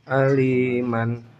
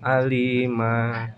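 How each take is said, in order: First: The word ends with an n sound. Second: The word ends on a vowel. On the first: The reading continues without a stop. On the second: The reader stops at this word.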